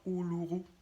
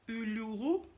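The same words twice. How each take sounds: First: The word is said with a German accent. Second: The word is said with a plain French accent. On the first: "avec l'accent allemand" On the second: "Je ne sais pas si j'ai bien prononcé Uluru"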